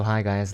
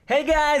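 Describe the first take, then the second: First: The voice is pitched low and relaxed. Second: The voice is pitched high and bright. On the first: This is how one talks with friends. "My normal voice ... it goes down" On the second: This is how one talks on the radio. "when I talk in the radio, it has to go up"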